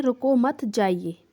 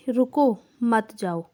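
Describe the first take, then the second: First: Slow "रुको", break, then "मत जाइए"; pause after रुको. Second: Slow "रुको मत", break, then "जाओ"; group "रुको मत" together slowly, then release "जाओ"; pause after मत. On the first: Teacher reads the first picture's sentence to pupils, pausing after "रुको". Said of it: "रुक जाओ". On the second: Teacher reads the second picture's sentence to pupils, pausing after "मत". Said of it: "रुको नहीं, चले जाओ". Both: Shown as a demonstration.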